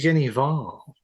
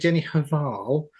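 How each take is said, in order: First: The H at the surname's start is silent. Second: The H at the surname's start is sounded. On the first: The speaker calls it right. "it's actually" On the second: The speaker calls it wrong. "So I said"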